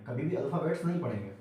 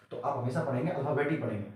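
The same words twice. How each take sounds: First: अल्फाबेट्स with the plural s, marked wrong; अल्फाबेट्स said with s as the mistake; wrong plural form. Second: अल्फाबेट said singular, no final s; अल्फाबेट with no s at the end; say alphabet singular. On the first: Teacher showing students the wrong form अल्फाबेट्स. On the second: Teacher telling students: say अल्फाबेट, never with s. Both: Shown as a demonstration.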